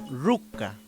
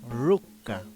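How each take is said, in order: First: The word begins with an r sound. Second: The same.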